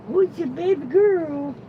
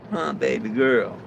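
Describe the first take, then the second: First: High falsetto coo to a dog; doting baby talk. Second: Said in the usual way. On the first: Pretend. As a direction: pitch it way up and coo. Same words, cooed high to dog.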